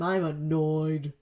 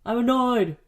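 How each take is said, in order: First: Slow, deliberate "I'm annoyed."; slow admission. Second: Louder, higher "I'm annoyed!" burst; annoyed outburst. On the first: Confessing to listeners she recorded on the wrong mic side, slow and held in. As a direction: say "I'm annoyed." slowly, holding it back. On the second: Fed up with recording on the wrong mic side, loud frustrated outburst. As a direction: let "annoyed" explode in frustration. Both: Real, not acted. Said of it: "Honesty time".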